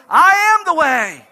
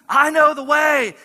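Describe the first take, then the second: First: "I am the way" with I and am punched loud and slow; the real claim, loud, slow, landing on I AM; stress on I AM. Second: KNOW the word that lands in "I know the way", slow and loud; the rejected claim, KNOW hit hard; stress on KNOW. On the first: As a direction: pound out I AM as the true claim. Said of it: "Jesus says, "I don't know the way, I am the way". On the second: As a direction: lean on KNOW as the wrong version. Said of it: "Jesus doesn't say / Jesus says". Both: Shown as a demonstration.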